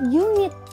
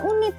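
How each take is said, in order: First: The word begins with a consonant y sound. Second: The word begins with a plain vowel sound. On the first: The speaker calls it right. "tapi unit. Y kan huruf konsonan" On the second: The speaker calls it wrong. "bacanya bukan unit"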